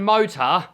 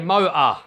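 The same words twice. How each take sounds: First: The middle T is clearly pronounced. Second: The middle T is dropped. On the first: "instead of saying motor" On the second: "we don't pronounce our T's"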